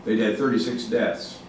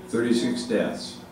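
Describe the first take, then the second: First: Said in the usual way. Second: "Thirty-six deaths" repeated slowly, each word weighed; slow down and lean on "Thirty-six" to drive it home; slow emphatic repeat. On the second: Real, not acted.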